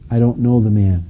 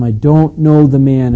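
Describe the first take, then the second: First: Measured, firm denial at normal volume; determined denial. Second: Loud, slow, emphatic denial; sworn denial. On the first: Peter denying Jesus to the second girl, understated determination. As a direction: state it with understated resolve. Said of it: "he's more determined now than ever". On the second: Peter swearing to his accusers, loud emphatic denial. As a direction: swear it slowly and forcefully. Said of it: "and he swore to them". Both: Retold or imitated.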